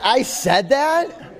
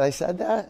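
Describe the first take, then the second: First: High, loud, slow and laughing in disbelief; "I said that?" stretched out high and loud through a laugh, rising at the end; incredulous laughing disbelief. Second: Said in the usual way. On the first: Retold or imitated. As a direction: squeal it through laughter, as if you can't believe you said that. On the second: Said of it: "And I said".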